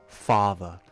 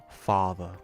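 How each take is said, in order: Both takes have the same delivery.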